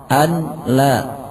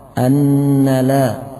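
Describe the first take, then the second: First: The n is pronounced separately before the l. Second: The n is lengthened into a doubled n sound. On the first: "tidak mengidghamkan nun pada lam" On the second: "membuat tasdid pada nun"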